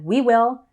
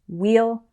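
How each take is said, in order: First: Both words are said fully and separately. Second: The words are joined into one syllable. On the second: "becomes we'll"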